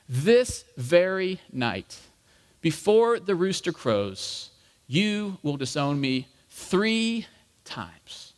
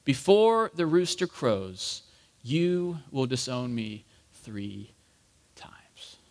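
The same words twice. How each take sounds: First: Slow, weighty pronouncement with pauses; measured, grave foretelling at normal volume; solemn prediction. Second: Slow, fading to a whisper; hushed, lower echo of a warning; remembered words. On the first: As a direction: spell it out deliberately, phrase by phrase. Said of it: "how long of a pause this probably was". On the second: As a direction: recall it haltingly, softer with each phrase. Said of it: "remembered the word that Jesus had spoken". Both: Acted.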